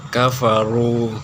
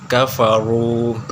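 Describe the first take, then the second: The two takes are said the same way.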